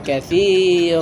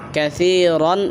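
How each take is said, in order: First: The word ends with a long vowel. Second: The word ends with an n sound. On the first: The reader stops at the end of the verse. "যদি আমরা থামি তাহলে হবে কাসির" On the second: The reader continues without stopping. "কাসিরন আছে"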